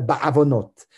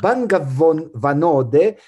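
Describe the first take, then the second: First: No consonant comes after the first syllable. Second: An 'ng' sound comes after the first syllable.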